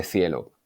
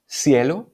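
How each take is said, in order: First: Cielo with a TH sound, thielo; Castilian C. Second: Cielo with an S sound, sielo; seseo. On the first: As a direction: say cielo with interdental C. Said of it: "en lugar de". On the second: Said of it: "pronunciar la Z o la C como si fueran S". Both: Shown as a demonstration.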